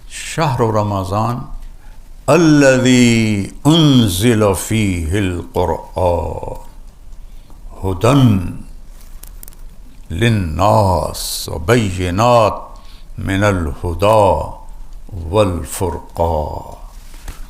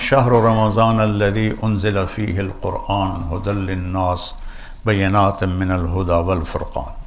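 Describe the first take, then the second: First: It is read with rising and falling intonation. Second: It is read with flat, even intonation.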